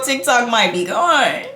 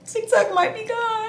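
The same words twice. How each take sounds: First: Said in the usual way. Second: High, whiny fake-crying pitch; hammed-up high whimper; mock wail. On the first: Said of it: "first take plain". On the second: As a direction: squeal it like a dramatic fake cry. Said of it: "I'ma cry".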